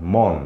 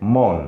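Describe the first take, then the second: No difference in how they are said.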